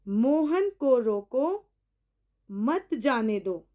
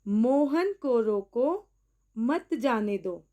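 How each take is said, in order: The two takes are said the same way.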